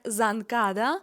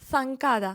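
First: The first sound is a buzzing z. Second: The first sound is a breathy th. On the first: The speaker calls it wrong. "вимовлятиметься не як занкада" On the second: The speaker calls it right. "а як санкада"

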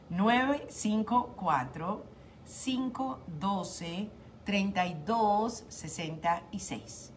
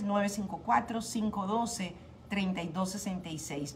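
First: The number is said slowly. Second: The number is said quickly.

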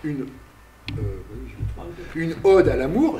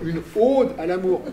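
First: The vowel in ode is said plainly. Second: The vowel in ode is exaggerated and overcorrected. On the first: The speaker calls it right. "au lieu de dire" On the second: The speaker calls it wrong. "je surjoue, en fait. Je fais de l'hypercorrection"

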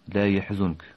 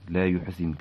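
First: The verb starts with ya and has zu. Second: The verb starts with yu and has zi. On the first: "بينما حفص كمثل قرأ لا يحزنك" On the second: "قرأ نافع بضم الياء وكسر الزاي"

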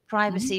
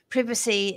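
First: It is said the American way. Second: It is said the British way. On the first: "might be something that maybe the US might say" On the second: "Privacy is how we would say it in the UK"

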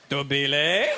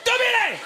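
First: It is said like a rising question. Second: It is said like a loud exclamation.

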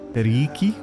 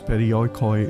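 First: The 'oi' letters are sounded like 'ee'. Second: The 'oi' letters are sounded like 'oy'. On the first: The speaker calls it right. "Anything with the alphabet OI is pronounced as an E, so it should actually be periiki" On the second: The speaker calls it wrong. "the way I pronounce perioikoi is wrong"

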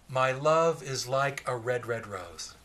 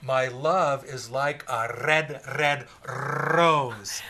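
First: It is read in a plain, non-Scottish accent. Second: It is read in a Scottish accent with rolled r.

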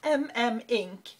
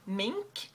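First: It is said as a letter, then ink. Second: It is said as one word, like the animal. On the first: The speaker calls it right. "apparently I've been saying it wrong" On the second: The speaker calls it wrong. "I always used to call it Mink, like the animal"

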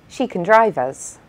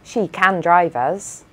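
First: The vowel in 'can' is a weak, reduced schwa sound. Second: The vowel in 'can' is a full, open 'a' sound. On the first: "we say" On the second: "And instead of"

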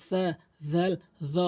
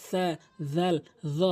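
Both takes have the same delivery.

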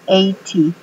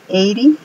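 First: The t is pronounced as a clear t. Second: The t sounds like a quick r or d.

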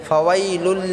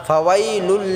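The two takes are said the same way.

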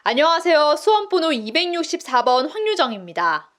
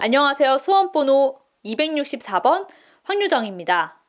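First: The sentence flows in one continuous breath. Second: The sentence is broken up with pauses. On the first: The speaker calls it right. "한 문장의 호흡을 다 가져가는 거죠" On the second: The speaker calls it wrong. "이거를 끊어서 읽으면"

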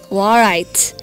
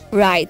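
First: The W sound is pronounced at the start. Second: The W sound is silent at the start. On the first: The speaker calls it wrong. "We don't say how write, like warite" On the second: The speaker calls it right. "we say wrap and right"

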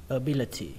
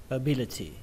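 No difference in how they are said.

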